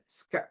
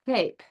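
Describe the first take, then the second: First: The word starts with a clear, crisp S sound. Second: The word starts with a slushy, lisped S sound. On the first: The speaker calls it right. "The tongue, you feel it. It's back there" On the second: The speaker calls it wrong. "If you have the tongue lower, like this, ... it'll sound like this"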